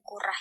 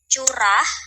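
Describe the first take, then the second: First: The word begins with a 'k' sound. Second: The word begins with a 'ch' sound. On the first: The speaker calls it wrong. "bukan kurah ya" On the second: The speaker calls it right.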